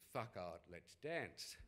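It is said in an Australian accent.

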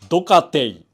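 Said stiffly, ending with separate te-i sounds. A clerk reads it as written on a form. "陸運局の人が言うドカティの言い方"

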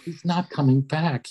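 The line sounds gentle and caring. The speaker is being considerate of the listeners' feelings. "I was trying to be like solicitous of their feelings"

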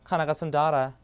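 It is said in an Australian accent. "호주 가면 끝납니다"

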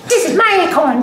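It is said in a put-on squirrel voice.

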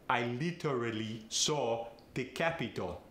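It is said in a Farsi accent.

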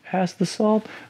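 It is said in a timid, shy way.

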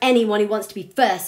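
It is said in a stern, lecturing tone. The speaker is talking down from above. The speaker calls it wrong. "it's not like he stood over them and he's like"

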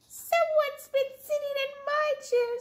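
A high squeaky Baby Bear voice.

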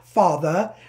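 The word is said in a British accent. "if I had to put on my British accent"

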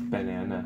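It is said with a clear, unblocked nose. The speaker no longer has a cold. "Now you're not all stuffed up. Now it's banana"

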